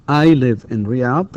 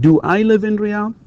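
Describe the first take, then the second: First: Said in the usual way. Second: "Do I live in Riyadh?" with a strong high rise at the end; rising question tune. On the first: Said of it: "لما نقول مثلًا هنا". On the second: Shown as a demonstration. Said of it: "The question will be".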